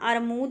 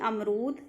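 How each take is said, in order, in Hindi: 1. "r", "m" से पहले आता है। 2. "m", "r" से पहले आता है।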